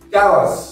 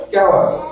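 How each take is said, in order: The two takes are said the same way.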